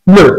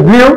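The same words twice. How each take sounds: First: Blue said as a plain "bloo"; blue, a clean "bloo"; blue pronounced "bloo"; correct pronunciation. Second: Blew said as "bliu", with an i glide; the common wrong "bliu" for blew; wrong pronunciation. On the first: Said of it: "এর উচ্চারণ হবে". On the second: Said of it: "আমরা এর উচ্চারণ করি". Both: Shown as a demonstration.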